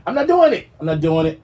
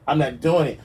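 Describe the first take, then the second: First: High, loud I'm not doing it; much higher and louder flat refusal; emphatic refusal. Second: Said in the usual way. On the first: Real, not acted. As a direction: shriek the refusal. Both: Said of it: "repeated refusal".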